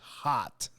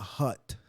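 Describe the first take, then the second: First: The vowel sounds like the one in 'hot'. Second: The vowel sounds like the one in 'hut'. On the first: The speaker calls it right. "It's hot" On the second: The speaker calls it wrong. "It's not hut"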